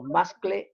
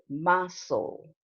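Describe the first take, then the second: First: It has a k sound in the middle. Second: It has no k sound, like castle. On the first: The speaker calls it wrong. "no muscle" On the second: The speaker calls it right. "You say muscle. The same as castle"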